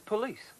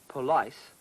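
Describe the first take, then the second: First: The last syllable rhymes with 'piece'. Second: The last syllable rhymes with 'ice'. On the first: The speaker calls it right. "it's police" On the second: The speaker calls it wrong. "you don't say police"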